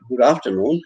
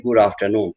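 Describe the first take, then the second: First: "Good afternoon" with a rising end, as the opening greeting; greeting tune. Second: "Good afternoon" with a falling end, as the answer; reply tune. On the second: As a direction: return "Good afternoon" and let it fall. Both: Shown as a demonstration. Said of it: "you'll also respond and reciprocate".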